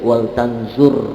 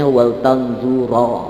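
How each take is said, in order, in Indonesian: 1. Kata terakhir berakhir tanpa vokal. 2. Kata terakhir berakhir dengan vokal a. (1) "harus sukun" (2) "nggak boleh dibacanya"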